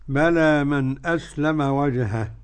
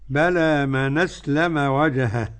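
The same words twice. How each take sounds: The two takes are said the same way.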